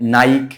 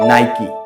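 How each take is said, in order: First: One syllable with an 'eye' vowel, ending in k. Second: Two syllables, ending with a 'kee' sound. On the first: The speaker calls it wrong. "অনেকে উচ্চারণ করে নাইক" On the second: The speaker calls it right. "সঠিক উচ্চারণ হবে নাইকি"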